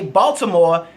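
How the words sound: Said in a general American accent. This is how outsiders say it. "you say"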